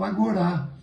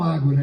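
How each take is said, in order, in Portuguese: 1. A tônica está na última sílaba. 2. A tônica está na primeira sílaba. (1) "eles falam Agorá" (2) "não falam Ágora"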